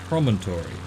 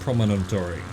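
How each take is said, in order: First: The word is said with its usual syllables. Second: The word is said with an extra syllable. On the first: The speaker calls it right. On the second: The speaker calls it wrong.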